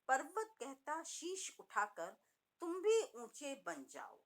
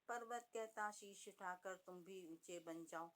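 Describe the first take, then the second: First: The pitch rises and falls with lively variation. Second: The pitch stays flat with little variation. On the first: The speaker calls it right. "तो आप देखिए स्वर में कितना आरोह अवरोह।" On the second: The speaker calls it wrong. "तो बच्चे इसमें बिल्कुल रुचि नहीं लेंगे"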